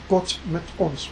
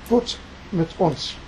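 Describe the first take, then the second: First: Gott mit uns said slowly in German, kʊt mɪt ʊns; quiet, slow German phrase; German motto. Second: Gott mit uns again slowly in German, kʊt mɪt ʊns; German motto. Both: Retold or imitated. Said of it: "his slogan was".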